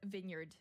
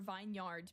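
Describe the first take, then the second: First: The first part sounds like a short vin. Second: The first part sounds like the word vine. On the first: The speaker calls it right. "I did not know that it was vineyard" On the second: The speaker calls it wrong. "I always affectionately called a vineyard"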